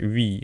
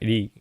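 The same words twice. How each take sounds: First: The syllable uses an English-style R sound. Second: The syllable uses a Japanese-style R sound. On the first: "English is like Ri" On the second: "in Japanese it's like Ri"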